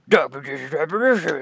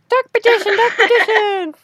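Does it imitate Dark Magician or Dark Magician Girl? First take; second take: Dark Magician; Dark Magician Girl. First: It imitates the Dark Magician's own voice. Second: It imitates Dark Magician Girl's voice.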